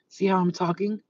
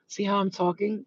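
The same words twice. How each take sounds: First: The S sounds are clean with little hiss. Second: The S sounds carry a strong hissing noise. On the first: The jaw is lined up. The speaker calls it right. "it doesn't sound like that anymore" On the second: The jaw is out of line. The speaker calls it wrong. "your jaw is crooked by doing this"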